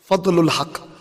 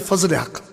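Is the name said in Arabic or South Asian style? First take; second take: Arabic; South Asian. First: It is said with Arabic sounds and endings. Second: It is said with South Asian sounds, no endings. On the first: "like with the Arabic style" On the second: "I say Fazl Haq. Because that's how his mother would have pronounced it"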